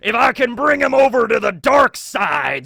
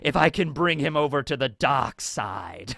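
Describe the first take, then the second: First: It is said in an Emperor impression. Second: It is said in his normal voice.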